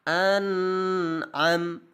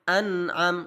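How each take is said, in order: First: The n sound is held overly long. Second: The n sound is short and moves on directly. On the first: The speaker calls it wrong. "memanjangkan suara nun sukun dan tanwin lebih dari satu harokat" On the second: The speaker calls it right. "Yang benar adalah an am an am langsung"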